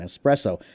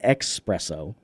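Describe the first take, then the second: First: The word begins with an 'es' sound. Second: The word begins with an 'ex' sound. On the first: The speaker calls it right. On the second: The speaker calls it wrong.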